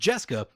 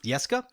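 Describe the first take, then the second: First: The name starts with a J sound. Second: The name does not start with a J sound. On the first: The name is taken as Hebrew. The speaker calls it right. "the J is pronounced" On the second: The name is taken as Scandinavian. The speaker calls it wrong. "I assumed that it was a Scandinavian name"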